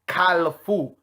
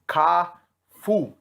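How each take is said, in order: First: The word is said with an L sound. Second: The word is said without an L sound. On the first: The speaker calls it wrong. "no one that is of Haitian descent says Kalafu with an L" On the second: The speaker calls it right. "the correct way of pronouncing it in Haitian Creole"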